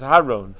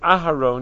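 First: The name begins with an h, dropping the opening vowel. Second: The name begins with a full opening vowel. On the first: The speaker calls it wrong. "with a patach without the aleph" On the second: The speaker calls it right. "Instead of saying Aharon"

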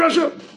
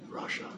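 First: The word is shouted harshly and angrily. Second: The word is said softly and warmly. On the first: The person is being publicly condemned. The speaker calls it wrong. "don't scream at him" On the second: The person is being corrected with care. The speaker calls it right. "say lightly and nicely"

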